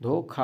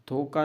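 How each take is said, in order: First: धोखा with aspirated kh; teacher modelling the aspirated sound; correct pronunciation. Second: धोखा with plain k, as dho-ka; teacher showing the unaspirated mistake; wrong pronunciation. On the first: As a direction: put breath on the ख in धोखा, dho-kha. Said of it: "धोखा होता है". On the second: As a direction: drop the aspiration on the ख of धोखा. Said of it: "धोखा नहीं होता". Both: Shown as a demonstration.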